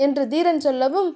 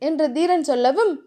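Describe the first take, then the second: No difference in how they are said.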